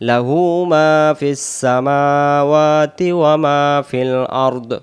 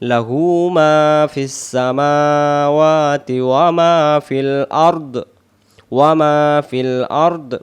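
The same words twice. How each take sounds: First: The phrase is recited at a fast pace. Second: The phrase is recited at a slow pace.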